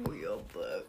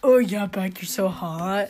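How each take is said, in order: First: Very low, quiet sleazy voice; hammed-up low come-on; mock lustful man. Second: Mock lustful man. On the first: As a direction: murmur it deep like a lecherous boyfriend. Mock-voicing man's lustful quote. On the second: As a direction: echo a lusty boyfriend, a little low. Echoing the man's lustful quote.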